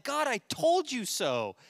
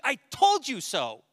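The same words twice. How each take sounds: First: High, slow, gloating; smug told you so. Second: Higher, louder, slow gloating; smug told you so. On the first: Jonah gloating to God, high slow smug. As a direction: drag out told like a sulky prophet. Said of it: "He's like". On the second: Jonah gloating after they repent, loud and slow. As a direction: stretch out told with triumph. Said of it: "he's like". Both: Retold or imitated.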